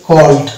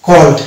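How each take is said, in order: The two takes are said the same way.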